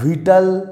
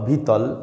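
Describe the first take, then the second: First: It is pronounced the English way, 'Vital'. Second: It is pronounced the Bengali way, 'Bhitol'.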